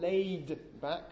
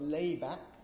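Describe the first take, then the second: First: The d sound at the end is pronounced. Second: The d sound at the end is dropped. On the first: "not laid back" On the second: "but lay back"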